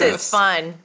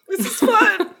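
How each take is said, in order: First: The tone sounds sarcastic and insincere. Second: The tone sounds sincere and genuine. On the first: The speaker seems not to enjoy it. The speaker calls it wrong. "It sounds very sarcastic" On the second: The speaker really enjoys it. The speaker calls it right. "There. Good"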